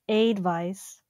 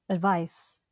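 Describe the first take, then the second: First: The first vowel is a full, clear vowel. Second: The first vowel is a reduced schwa. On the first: The speaker calls it wrong. "many people might say advice or advice" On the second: The speaker calls it right. "but it's actually advice"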